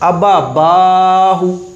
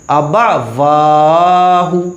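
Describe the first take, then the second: First: The lips close together for a b sound. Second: The lips round without closing for a w sound. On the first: The speaker calls it wrong. "इसमें गलती लोग क्या करते हैं" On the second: The speaker calls it right. "वाव में हॉट नहीं मिलेंगे, गोल हो जाएंगे"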